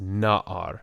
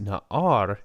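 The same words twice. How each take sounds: First: The stress is on the first syllable. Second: The stress is on the last syllable. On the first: The speaker calls it right. "it's pronounced na'ar" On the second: The speaker calls it wrong. "this is not pronounced na'ar"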